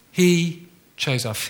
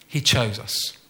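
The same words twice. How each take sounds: First: He chose us slowed right down, each word weighted; slow emphatic. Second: Said in the usual way. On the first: Shown as a demonstration. Preacher to congregation, repeating He chose us slowly. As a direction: drive home He chose us, slowly. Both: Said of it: "the first one is this".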